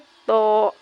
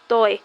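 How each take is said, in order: First: The letter name ends on a plain vowel. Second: The letter name ends with a 'y' glide. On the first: The speaker calls it right. "तो सही अदायगी क्या है?" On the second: The speaker calls it wrong. "कुछ लोग इसके तोय पढ़ते हैं।"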